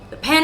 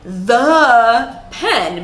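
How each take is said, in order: First: The word 'pen' is stressed. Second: The word 'the' is strongly stressed. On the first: "You barely hear the word the" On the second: "I just stress the word the a lot"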